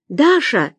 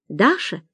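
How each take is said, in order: First: Higher, insistent call of Даша; nervous. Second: ДАША asked with a quick rise at the end; questioning. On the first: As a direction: call Даша with a falling, anxious edge. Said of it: "занервничала женщина на том конце провода". (Даша — нервно, настойчиво) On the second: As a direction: say Даша as a tentative phone question. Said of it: "спросил незнакомый голос". (Даша — с вопросительным подъёмом) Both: A narrator's reading.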